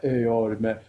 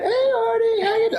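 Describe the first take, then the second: First: Raspy deep voice. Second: Very high, squeaky mimicry of a caller; Jennifer's high pitch. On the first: Retold or imitated. Neighbor from upstairs greeting Artie in a raspy deep voice. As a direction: drop right down into a cool raspy bass. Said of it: "raspy, deep voice, like". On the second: Friend phoning Artie, imitated in a very high pitch. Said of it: "it's just this high pitch".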